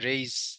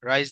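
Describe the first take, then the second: First: The vowel sounds like 'ay', as in raise. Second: The vowel sounds like 'eye', as in rise. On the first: The speaker calls it right. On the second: The speaker calls it wrong. "রাইজ না"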